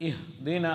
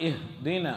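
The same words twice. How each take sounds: The two takes are said the same way.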